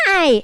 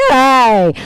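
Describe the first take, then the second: First: Put-on high small-boy "Hi!"; little kid voice. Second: Put-on a kid whose voice just broke, louder; voice broken by puberty. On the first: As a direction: chirp it like a tiny kid. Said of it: "he's this big and he's like". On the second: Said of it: "all of a sudden he's like".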